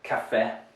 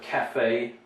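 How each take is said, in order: First: The final vowel is a short eh sound. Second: The final vowel is a long A sound. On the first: The speaker calls it wrong. "You, you make it short" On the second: The speaker calls it right. "it's a long A sound"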